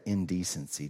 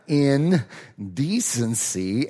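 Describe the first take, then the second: First: It is run together quickly as one word. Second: It is said slowly with the words separated.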